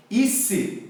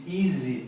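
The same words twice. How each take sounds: First: Easy with S for Z, EE-see; Spanish-accented easy. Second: Easy with a voiced Z, EE-zee; correct Z sound. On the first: Teacher showing Spanish speakers' error, easy as EE-see. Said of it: "Eles falam ice em vez de easy". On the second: Teacher giving the right form, easy with a Z. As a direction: buzz the Z in easy. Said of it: "em vez de easy". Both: Shown as a demonstration.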